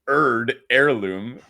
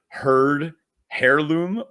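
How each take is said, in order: First: The h at the start is silent. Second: The h at the start is pronounced. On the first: The speaker calls it wrong. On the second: The speaker calls it right.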